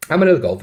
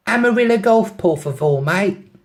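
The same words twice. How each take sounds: First: Said in the usual way. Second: Put-on high, loud London accent on Spanish; London-accented Spanglish. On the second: London girl telling the driver where to go, London accent. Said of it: "in the best Spanglish".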